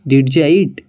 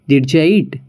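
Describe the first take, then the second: First: Did you is blended into one word, didja. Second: The same.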